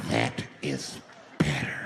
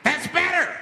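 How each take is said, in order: First: Much lower, drawn-out menacing retake; low creepy approval. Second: High, loud creepy approval; mock menacing approval. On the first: Retold or imitated. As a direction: say it slow and deep like a satisfied creep. Same words, low retake. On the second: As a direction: purr it like a creep pleased with obedience. Flasher approving silence.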